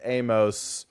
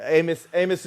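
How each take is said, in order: First: "Amos" as AY-mohss, long o; full-vowel pronunciation. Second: "Amos" with a reduced ending, AY-muss; quick short form. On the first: Allowing co-host's version, "Amos" as AY-mohss. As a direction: give "Amos" a full "oh" in the ending. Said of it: "you know, could easily". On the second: Explaining the shorthand to co-host, "Amos" as AY-muss. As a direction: say "Amos" quickly, second vowel swallowed. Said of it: "is just the quick hand". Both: Shown as a demonstration.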